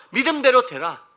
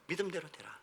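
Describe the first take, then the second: First: Higher, forceful declaration of scripture; loud proclamation. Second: Very soft, lowered scripture line; hushed echo. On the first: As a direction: proclaim it like a command. Scripture proclaimed, then repeated softly. (높고 크게 선포하듯) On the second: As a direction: let it sink in quietly. (나직하고 조용하게 되뇌듯) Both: Acted.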